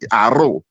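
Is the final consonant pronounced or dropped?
dropped. The final z sound is dropped, Dominican style.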